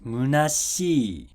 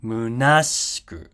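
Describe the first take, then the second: First: "munashii" very slow, falling after shi; "munashii" with a late pitch fall; drop after shi. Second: "munashiku" slowly, pitch falling after na; "munashiku" with an earlier pitch fall; drop after na. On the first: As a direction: stretch "munashii", dropping the pitch on the last vowel. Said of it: "it drops after shi". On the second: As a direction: peak on "na" in "munashiku", then drop. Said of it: "it drops after na". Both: Shown as a demonstration.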